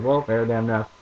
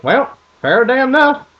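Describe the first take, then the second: First: Said in the usual way. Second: High, loud country dad voice. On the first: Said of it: "he just said". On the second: Retold or imitated. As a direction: play the dad shrugging it off. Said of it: "And he goes".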